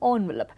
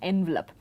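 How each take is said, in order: First: The word is said with a French-style first vowel. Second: The word is said with an English-style first vowel. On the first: This was the accepted pronunciation decades ago. "the more accepted pronunciation was envelope" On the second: This is the usual pronunciation today. "version of B B C uses the pronunciation envelope"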